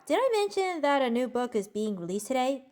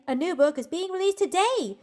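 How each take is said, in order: First: Said in the usual way. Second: Higher-pitched, thrilled exclamation; excited. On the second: Acted. Fan announcing a new book released today, excited. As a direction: burst out with the big news, lifting on today. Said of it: "I am so excited".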